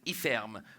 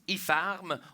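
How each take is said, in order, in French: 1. La voyelle de ferme se prononce comme un e. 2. La voyelle de ferme se prononce comme un a. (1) "au lieu de Iferme" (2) "on prononce Ifarm"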